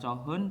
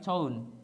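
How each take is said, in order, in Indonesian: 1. Bunyi h jelas diucapkan. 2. Bunyi h dihilangkan, dibaca menjadi joeun.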